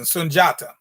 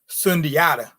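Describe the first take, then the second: First: The middle consonant is a single 'j' sound. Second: The middle is pronounced as separate 'di-a' sounds. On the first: The speaker calls it right. "you get a little closer to the actual pronunciation" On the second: The speaker calls it wrong. "as opposed to Sundiata. I don't know who that is"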